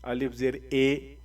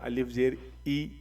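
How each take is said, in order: First: The final vowel sounds like 'ay'. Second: The final vowel sounds like 'ee'. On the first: The speaker calls it wrong. "अलिफ ज़ेर ए जो है वह मजहूल है" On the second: The speaker calls it right. "अलिफ ज़ेर ई मारूफ है, मतलब सही है"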